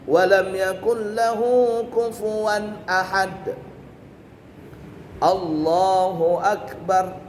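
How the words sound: There is a breathing pause before the final phrase. The speaker calls it right. "bernafas di situ"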